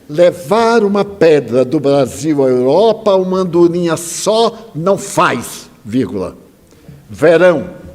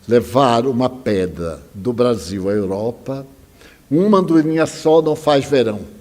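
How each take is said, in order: First: A pause falls between 'faz' and 'verão'. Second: No pause between 'faz' and 'verão'.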